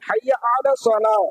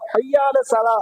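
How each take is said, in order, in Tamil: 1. 'ala' என்ற சொல் தெளிவாகவும் முழுமையாகவும் உச்சரிக்கப்பட்டது. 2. 'ala' என்ற சொல் விழுங்கப்பட்டது, முழுமையாக உச்சரிக்கப்படவில்லை. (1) "அலா அப்படிங்கிற வார்த்தையே சேர்த்துதான் நம்ம படிக்கணும்" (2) "அதிகமான பிழைகள் செய்வாங்க"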